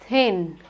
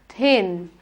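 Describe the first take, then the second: No difference in how they are said.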